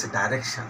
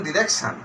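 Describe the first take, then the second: First: "direction" with a long i, dai-REK-shun; "direction" opening on dai, not di; British pronunciation. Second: "direction" with a short i, di-REK-shun; "direction" opening on di, not dai; American pronunciation. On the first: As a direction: say "direction" the British way, first syllable like "die". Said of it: "and British direction". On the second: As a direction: say "direction" the American way, first syllable as "di". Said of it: "American pronunciation direction". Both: Shown as a demonstration.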